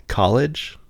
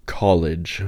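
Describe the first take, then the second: First: "college" as the alternative pronunciation, higher with a questioning rise; contrasting vowel. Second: "College" said deliberately with the speaker's own open vowel; own usual vowel. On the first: Checking the other version with the questioner, "college" tried out questioningly. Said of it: "Is that what you're saying?". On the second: Asked how everyone says college, showing "College" deliberately. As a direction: say "College" slowly and levelly, as a sample. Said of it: "Is that just how everyone pronounces college?". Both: Shown as a demonstration.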